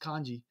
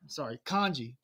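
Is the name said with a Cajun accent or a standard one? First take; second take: standard; Cajun. First: The name is said without a Cajun accent. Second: The name is said with a Cajun accent. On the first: The speaker calls it right. "It's Kanji" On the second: The speaker calls it wrong. "I'm saying it wrong. That's my Cajun accent"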